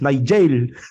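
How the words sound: The name is said the Batangas way. "Sa Batangas"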